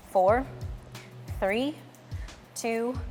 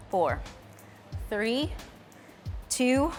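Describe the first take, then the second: No difference in how they are said.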